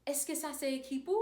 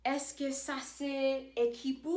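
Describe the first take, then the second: First: Said in the usual way. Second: Slow, every syllable of "Est-ce que ça c'est équipe?" spelled out; slow careful demo. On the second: Shown as a demonstration. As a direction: say it slowly for learners to copy. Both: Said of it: "I could say".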